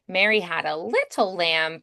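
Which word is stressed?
little. The stress is on little.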